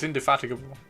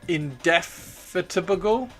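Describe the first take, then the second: First: The stress falls on a different syllable. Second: The stress falls on the second syllable. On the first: This is the speaker's own way of saying it. The speaker calls it right. "But no, it's indefatigable" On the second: This is how Americans say it. The speaker calls it wrong. "in America it would be... they put the emphasis on the second syllable"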